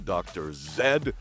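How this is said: The letter Z is said as 'zed'.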